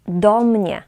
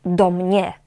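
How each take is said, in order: First: "do mnie" stressed on "do", "mnie" falling. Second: "do mnie" wrongly stressed on "mnie". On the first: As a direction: lean on "do" in "do mnie". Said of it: "akcent pada na przyimek". ("do mnie" z akcentem na „do”) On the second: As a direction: demonstrate the mistake, leaning on "mnie". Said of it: "Mówimy do mnie, nie". ("do mnie" z błędnym akcentem na „mnie”) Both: Shown as a demonstration.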